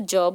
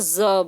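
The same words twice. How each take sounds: First: The consonant sounds like English 'j'. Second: The consonant sounds like English 'z'. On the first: "अगर नुक्ता ना लगा हो तो ज बोलेंगे" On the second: "नुक्ता लगाए तो ज बोलेंगे"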